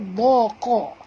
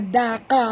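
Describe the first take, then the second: First: The d sound is pronounced heavy and thick. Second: The d sound is pronounced light and thin. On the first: The speaker calls it right. "Huruf tebal" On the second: The speaker calls it wrong. "Jangan baca daqa pula ya"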